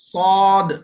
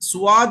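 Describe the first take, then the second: First: It is said without a 'w' glide. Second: It is said with a 'w' glide. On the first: The speaker calls it right. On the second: The speaker calls it wrong.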